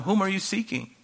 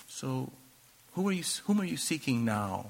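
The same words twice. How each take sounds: First: Said in the usual way. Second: Much softer, almost hushed; quiet, pointed question. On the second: Retold or imitated. Jesus to the fallen soldiers, quietly asking again. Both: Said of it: "how he said something".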